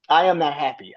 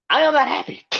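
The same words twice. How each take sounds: First: Said in the usual way. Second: Mock upset. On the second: Fan vents over losing streak.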